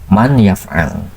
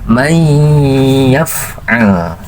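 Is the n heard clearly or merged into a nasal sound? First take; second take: clear n; nasal merge. First: The n is pronounced clearly at the tongue tip. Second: The n merges into a nasalized y sound.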